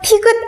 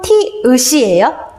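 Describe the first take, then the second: First: A g sound comes before the final vowel. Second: No g sound comes before the final vowel. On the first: The speaker calls it wrong. "티귿 아니고" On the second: The speaker calls it right.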